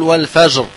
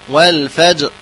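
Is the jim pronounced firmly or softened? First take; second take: softened; firmly. First: The jim is softened. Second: The jim is pronounced firmly. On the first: The speaker calls it wrong. "لا نقول والفجر" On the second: The speaker calls it right. "والفجر هكذا"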